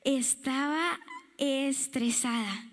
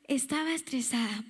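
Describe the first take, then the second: First: Drawn-out stressed sigh. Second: Said in the usual way. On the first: Shown as a demonstration.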